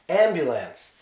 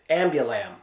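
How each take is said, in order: First: The word ends with an S sound. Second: The word ends with an M sound. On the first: The speaker calls it right. "It's supposed to be ambulance" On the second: The speaker calls it wrong. "Not even not even with the S sound at the end"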